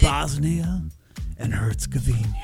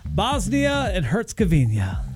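First: It is said in a romantic, seductive tone. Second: It is said in a plain, neutral way.

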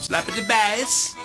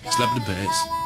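First: It sounds like Borat's accent. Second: It sounds like his normal accent.

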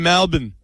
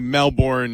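First: It is said in an Australian accent. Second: It is said in an American accent.

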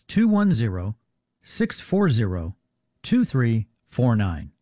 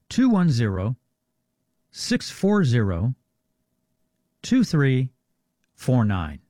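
First: The number is read at normal speed. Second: The number is read more slowly.

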